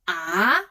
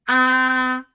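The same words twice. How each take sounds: First: The pitch rises from middle to high. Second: The pitch stays level and high. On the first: "The second tone is about raising" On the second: "The first tone is flat"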